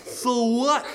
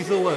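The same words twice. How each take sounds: First: High, insolent question; bratty retort. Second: Said in the usual way. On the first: Acted. Cursed girl answering the grateful bear, high bratty retort. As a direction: toss it out high and careless.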